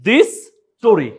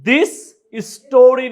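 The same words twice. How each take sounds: First: The two s sounds merge into one. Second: Both s sounds are pronounced separately. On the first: The speaker calls it right. "আমরা একটা এস উচ্চারণ করব" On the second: The speaker calls it wrong. "না বলে"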